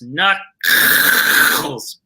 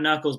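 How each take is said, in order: First: The name is said in a Yiddish-style way. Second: The name is said in plain English. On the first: The speaker calls it right. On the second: The speaker calls it wrong. "it's not Knuckles"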